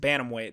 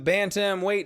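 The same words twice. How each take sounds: First: The T is soft and barely pronounced. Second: The T is pronounced crisply and hard.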